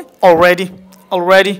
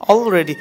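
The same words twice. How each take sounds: First: Already with stretched "ray"; smart pronunciation. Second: Already with short "re"; normal pronunciation. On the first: Teacher telling learners what to say, already as "ol-ray-di". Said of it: "আপনাদের কি বলতে হবে?". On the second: Teacher showing the everyday way, already with short e. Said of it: "একদম normal ওয়েতে বলি". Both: Shown as a demonstration.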